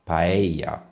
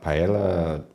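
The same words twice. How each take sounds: First: The double L is said like a Y. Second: The double L is said like an L. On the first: The speaker calls it right. "You pronounce it somewhat like a Y" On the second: The speaker calls it wrong. "a lot of English will pronounce it paella... Paella, no"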